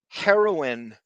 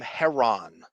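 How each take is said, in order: First: The middle vowel sound is kept. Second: The middle vowel sound is dropped. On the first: "why not just pronounce the whole thing?" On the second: "Why take the I out"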